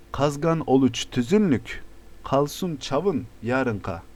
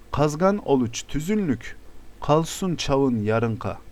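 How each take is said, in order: No difference in how they are said.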